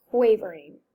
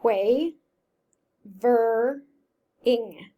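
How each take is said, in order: First: Said in the usual way. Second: "Quay, ver, ing" split into separate slow syllables; sounded out by syllable. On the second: Shown as a demonstration. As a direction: break "quavering" into three spoken chunks. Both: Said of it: "let's see if I can sound that out".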